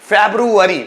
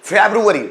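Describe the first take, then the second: Both takes have the same delivery.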